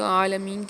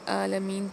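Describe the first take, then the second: First: It begins with a squeezed throat sound. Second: It begins with a plain glottal catch. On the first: The speaker calls it right. "आइन के वक्त आपने क्या करना है कि थोड़ा सा स्क्वीज़ करना है" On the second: The speaker calls it wrong. "जो बिल्कुल गलत है"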